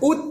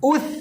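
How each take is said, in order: First: It ends in a hard 't' sound. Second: It ends in a breathy 'th' sound. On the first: The speaker calls it wrong. "না উত বলে তা হয়ে গেল" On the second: The speaker calls it right. "তা না উথ, বাতাস বের হবে"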